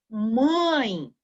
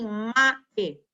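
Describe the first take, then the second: First: The vowel is said with a nasal sound. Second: The vowel is said without nasal sound. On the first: The speaker calls it right. "eu falo mãe" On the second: The speaker calls it wrong. "eu não falo assim"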